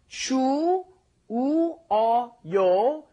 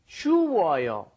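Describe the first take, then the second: First: The syllables are said slowly and separately. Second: The syllables are said quickly and run together.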